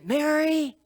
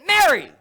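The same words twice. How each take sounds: First: It sounds exasperated and impatient. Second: It sounds stern and sharp.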